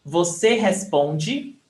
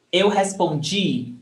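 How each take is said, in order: First: Responde slowly, PON strong and de light; stress on PON. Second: Respondi with DI long and strong; stress on final DI. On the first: Teacher comparing with yesterday's verb, stress on PON. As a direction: lean on the middle syllable of responde. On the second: Teacher comparing with yesterday's verb, stress on final DI. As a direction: land on the last syllable, JEE, of respondi. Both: Shown as a demonstration. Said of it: "The difference is in the stressed syllable".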